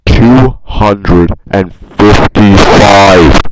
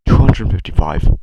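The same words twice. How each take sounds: First: Huge, very slow yell; drawn-out bellow. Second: Much louder than usual, brisk; loud announcement. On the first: Acted. Vlogger hammering home his asset count, bellowing slowly. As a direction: bellow it, stretching every word. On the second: Real, not acted. Vlogger revealing how many assets he made, loudly. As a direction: call the number out loudly.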